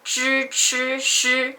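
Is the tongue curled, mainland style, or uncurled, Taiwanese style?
mainland. Said in mainland Mandarin with a curled tongue.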